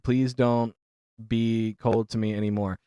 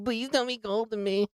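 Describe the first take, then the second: First: It is read in a normal voice. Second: It is read in a put-on voice.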